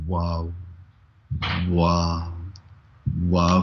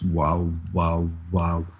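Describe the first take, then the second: First: The words come about one per second. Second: The words come about two per second.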